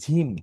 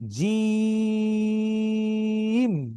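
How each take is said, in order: First: The first consonant is a breathy aspirated jh. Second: The first consonant is a plain j sound. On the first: The speaker calls it wrong. "অনেকে ঝিম বলে" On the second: The speaker calls it right. "আবার বলছি"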